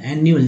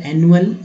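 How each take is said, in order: First: Said in the usual way. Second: एनुअल with a short clipped ए; short first vowel. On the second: Shown as a demonstration. Teacher to class, एनुअल with a short ए. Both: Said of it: "ए छोटा हुआ तो एनुअल".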